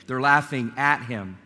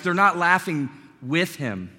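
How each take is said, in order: First: "at" stressed against the rest. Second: "with" set apart and stressed. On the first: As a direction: lean on "at" as the correction. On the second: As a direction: lean on "with" for contrast. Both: Shown as a demonstration. Contrasts laughing with and at.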